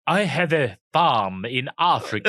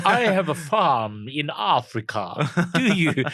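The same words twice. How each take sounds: First: Slow, hammed-up fake South African accent, laughing; Val Kilmer's accent. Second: Slow, exaggerated fake South African accent; Val Kilmer's accent. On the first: Mocking Val Kilmer in The Saint, a slow laughing fake accent. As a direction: drawl out a bad Hollywood Afrikaner. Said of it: "Was Val Kilmer in ... The Saint". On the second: Repeating Val Kilmer's line as a slow hammed-up fake accent. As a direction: ham up a Hollywood Afrikaner, slowly. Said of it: "Who taught you this accent?".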